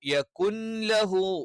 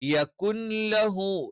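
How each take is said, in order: First: A faint trace of the n remains. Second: The same.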